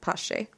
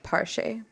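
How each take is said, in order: First: The name is said without an R sound. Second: The name is said with an R sound. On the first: This follows how the name is spelled. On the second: This imitates how someone with an accent said it.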